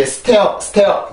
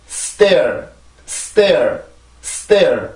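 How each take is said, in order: First: "stair" cut short with a rising end; wrong pronunciation. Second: "stair" drawn out with a falling tone; model pronunciation. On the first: Teacher warns learners never to say it so, wrong pronunciation. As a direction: say "stair" abruptly, tipping up, without gliding into the r. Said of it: "그렇게 하면 안 됩니다". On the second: English teacher models a word for learners to repeat, model pronunciation. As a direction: say "stair" long, gliding down into the r. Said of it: "그렇게 해서 요 단어를 발음을 해주세요". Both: Shown as a demonstration.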